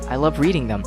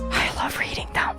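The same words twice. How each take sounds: First: It is said in a normal voice. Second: It is said in a whisper.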